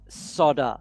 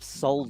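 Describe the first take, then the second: First: The L sound in the word is silent. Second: The L sound in the word is pronounced. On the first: The speaker calls it wrong. "my biggest, absolutely number one at the top is solder" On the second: The speaker calls it right. "There's an L. It's not silent"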